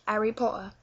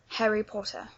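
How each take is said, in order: First: The H sound of Harry is dropped. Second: The H sound of Harry is pronounced. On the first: "Maybe you won't say the H" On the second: "if you're going for the more London accent"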